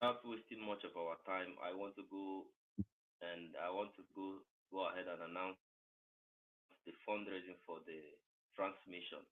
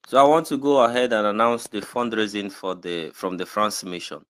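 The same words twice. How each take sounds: First: Very quiet, barely audible announcement; voice too low. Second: Clearly audible, projected announcement; raised voice. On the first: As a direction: announce it far too softly. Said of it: "It's too low". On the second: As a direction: speak up as you announce it. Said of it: "just raise your voice a little bit". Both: Real, not acted.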